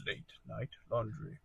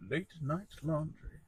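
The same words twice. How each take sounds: First: Soft, low title drop; hushed and understated; hushed title read. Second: Soft, deliberate title drop; understated late-night murmur; hushed title read. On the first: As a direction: say LAUNDRY quietly, like a late-night radio host. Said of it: "That was good". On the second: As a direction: say it quietly and smoothly, for effect. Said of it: "That's really good". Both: Pretend.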